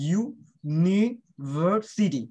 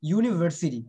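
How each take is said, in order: First: university very slowly, split ইউ-নি-ভার-সিটি; slow teaching breakdown of university; syllable by syllable. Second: Said in the usual way. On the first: Shown as a demonstration. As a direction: sound out university part by part, with gaps. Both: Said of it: "ইউ একটা syllable".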